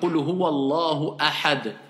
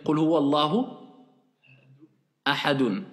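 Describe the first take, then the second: First: The last word ends on a bare consonant. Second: The last word ends with the full -un ending. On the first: The reciter stops at the end of the verse. "C'est comme ça qu'on récite" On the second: The phrase is read normally without stopping. "Mais normalement, c'est quoi? Quand vous allez lire"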